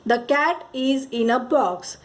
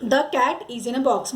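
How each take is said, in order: First: Very slow, word by word; drawn-out classroom reading; slow example read. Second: Slow, word by word; drawn-out classroom reading; slow example read. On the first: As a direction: read it out slowly for children. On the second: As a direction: read it again slowly for the class. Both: Shown as a demonstration. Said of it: "मतलब क्या".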